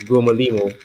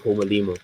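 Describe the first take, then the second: First: The name begins with a hard G sound. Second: The name begins with a breathy H sound. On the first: The speaker calls it wrong. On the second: The speaker calls it right.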